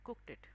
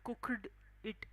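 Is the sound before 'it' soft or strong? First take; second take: soft; strong. First: The sound before 'it' is soft and weak. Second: The sound before 'it' is strong and clear. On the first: The speaker calls it right. "So D चा sound थोडासा असा soft होऊन जातो तिथे" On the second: The speaker calls it wrong. "असं नाही"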